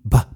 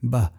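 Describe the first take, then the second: First: The b is released with a puff of air. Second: The b is released with no puff of air. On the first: The speaker calls it wrong. "don't overpronounce the B, so that you're feeling that puff of air" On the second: The speaker calls it right. "Pronounce it naturally, there's no puff of air"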